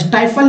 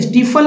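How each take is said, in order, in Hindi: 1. पहला स्वर एक eye ध्वनि है। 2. पहला स्वर एक लंबी ee ध्वनि है। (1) "स्टाइफल नहीं पढ़ेंगे" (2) "स्टीफल नहीं पढ़ेंगे"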